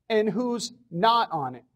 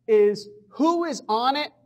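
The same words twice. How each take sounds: First: Not said with a falling accent; stress on not. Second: Said in the usual way. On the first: Shown as a demonstration. Lecturer to colleagues, setting who's not on it apart with stress. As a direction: lean on the word not to set it against who's on it.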